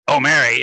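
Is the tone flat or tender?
flat. It is said in a flat, unfeeling way.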